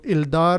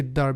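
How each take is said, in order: First: The L of the article is clearly pronounced. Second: The L merges into a doubled D sound. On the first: The speaker calls it wrong. "Instead of Ildar" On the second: The speaker calls it right. "it will be Iddar"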